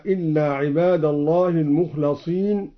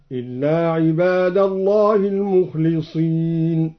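First: Said in the usual way. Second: "المخلصين" as al-mukhliseen, with i after the lam; slow chant, "المخلصين" with kasra on its lam. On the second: Shown as a demonstration. Reciter showing Al-Duri, "المخلصين" as al-mukhliseen. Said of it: "وكسر اللام من قوله تعالى".

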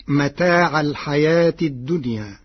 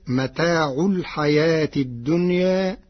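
First: متاع with final fatha, metaʕa; standard Hafs reading. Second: متاع ending in u, metaʕu; Warsh reading with damma. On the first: Teacher quoting the verse in the usual reading, متاع with fatha. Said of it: "قرأ ورش كلمة متاع". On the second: Teacher showing the Warsh reading, متاع with damma. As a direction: say متاع with a final u before الحياة. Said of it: "برفع العين". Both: Shown as a demonstration.

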